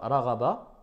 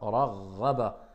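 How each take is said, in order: First: The r is single and not lengthened. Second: The r is doubled with light pressure. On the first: The speaker calls it wrong. "C'est pas raghaba. Là, il n'y aurait pas de shidda" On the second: The speaker calls it right. "il y a une shidda, mais je ne dois pas appuyer trop"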